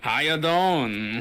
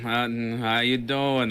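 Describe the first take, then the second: First: It is said in a put-on mobster voice. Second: It is said flat, with no care at all.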